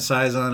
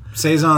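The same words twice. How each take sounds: First: The word is given a Germanic pronunciation. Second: The word is given a French pronunciation. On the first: "Saison, I think, is the Germanic" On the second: "Saison is French"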